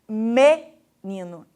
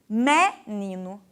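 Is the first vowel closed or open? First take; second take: closed; open. First: The first vowel is a closed e. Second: The first vowel is an open e. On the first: This is the speaker's own regional pronunciation. "Eu pronuncio o E fechado" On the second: This is how it is said in Bahia. "a palavra menino com o E aberto"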